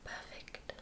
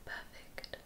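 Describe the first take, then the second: No difference in how they are said.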